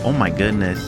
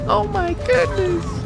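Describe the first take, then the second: First: It is said in a flat, bored tone. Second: It is said in an excited, ecstatic tone.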